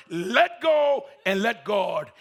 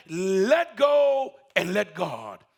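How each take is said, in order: First: Slow quoted command; voice of God. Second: Slow, loud call from God. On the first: Preacher repeats God's words slowly. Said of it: "When he heard the word". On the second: God repeats his command, slow and loud. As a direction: boom it out slowly. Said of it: "just said". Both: Acted.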